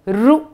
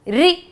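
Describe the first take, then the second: First: The letter is said with an 'oo' vowel. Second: The letter is said with an 'ee' vowel. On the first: This is another accepted way to say it. "इसको रू भी बोला जाता है।" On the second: This is the usual way it is said. "बोलिए मेरे साथ, री।"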